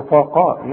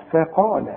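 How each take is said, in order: First: "فقال" with the ف thickened to match the ق; wrong heavy faa. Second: "فقال" with a light, thin ف before the heavy ق; correct light faa. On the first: Teacher scolds a learner's mistake, thick ف in "فقال". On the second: Teacher corrects the learner, light ف in "فقال". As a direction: keep the first syllable of "فقال" light. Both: Shown as a demonstration. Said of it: "أزعل قوي لو تقول لي".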